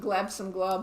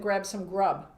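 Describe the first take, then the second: First: The words start with an 'gl' sound instead. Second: The words start with a clear 'gr' sound. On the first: The speaker calls it wrong. "we were struggling last week. It was glab some glub" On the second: The speaker calls it right. "Ooh, I said it right"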